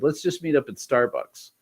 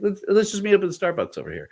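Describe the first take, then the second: First: Said in the usual way. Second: Higher, fast, carefree put-on voice; mock clueless self. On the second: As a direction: play yourself as oblivious. Mocking his own careless offer.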